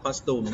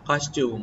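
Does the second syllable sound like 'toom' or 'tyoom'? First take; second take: toom; tyoom. First: The second syllable sounds like 'toom'. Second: The second syllable sounds like 'tyoom'. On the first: The speaker calls it wrong. "อย่าตูมนะ... อย่าอ่าน" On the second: The speaker calls it right. "แต่เราต้องอ่าน"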